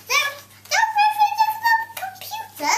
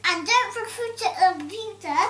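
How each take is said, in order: First: Very high, silly squeak; squeaky high voice. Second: Said in the usual way. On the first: Acted. Silly voice for the poem's ending. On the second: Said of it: "repeated in a squeaky voice".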